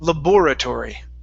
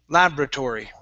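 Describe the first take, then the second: First: The stress is on the second syllable. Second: The stress is on the first syllable. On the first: "our stress is here on bore" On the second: "we put the stress at the very beginning of the word"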